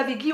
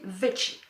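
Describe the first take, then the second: First: "veggie" said with a hard g, as "végui". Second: "veggie" said as "vetchi"; soft "vetchi" veggie. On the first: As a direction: pronounce "veggie" as French "vé-gui". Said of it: "il paraît qu'on dit pas veggie". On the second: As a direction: pronounce "veggie" with a soft ch-like middle. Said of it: "on dit veggie". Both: Shown as a demonstration.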